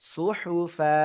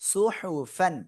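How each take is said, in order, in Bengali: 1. শব্দটি একটি দীর্ঘ আ স্বরধ্বনি দিয়ে শেষ হয়। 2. শব্দটির শেষে একটি ন ধ্বনি আছে। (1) "থেমে পড়লে কি হবে?" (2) "ফা আলিফ দুই জবর ফ্যান"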